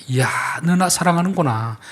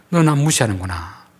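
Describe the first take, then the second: First: Higher, mildly delighted exclamation; pleased God. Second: Understated displeasure at usual pitch; displeased God. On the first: Preacher voices God to those who treat the weak well, mildly pleased. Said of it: "하나님 마음이 너무 기쁜 것입니다". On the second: Preacher voices God to those who scorn the weak, mildly displeased. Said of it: "약자들을 함부로 대하고 무시하면". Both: Acted.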